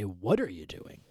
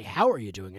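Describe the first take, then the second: First: "What are" leaned on, falling end; stress on What. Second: "How" leaned on, then falling away; stress on How. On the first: Host corrects the greeting, "What are" stressed. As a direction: lean on "What" instead. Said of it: "I should say". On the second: Host quotes usual greeting, "How" stressed. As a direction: lean on "How". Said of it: "I say". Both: Shown as a demonstration.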